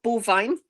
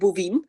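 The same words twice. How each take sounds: First: It is said like the ordinary English word. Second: It is said the local way, unlike English. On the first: It refers to cows. "think of bovine, cow" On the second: It is the name of the trail. "we pronounce it bovine"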